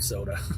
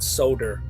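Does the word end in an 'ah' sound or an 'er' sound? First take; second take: ah; er. First: The word ends with an 'ah' sound. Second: The word ends with an 'er' sound.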